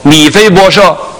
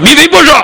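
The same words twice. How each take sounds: First: The name is called in a calm, ordinary tone. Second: The name is called in a harsh, stern tone. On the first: The one called feels somewhat reassured. The speaker calls it right. "他很正常的说" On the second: The one called expects punishment. The speaker calls it wrong. "那米非波设就傻了，那完了"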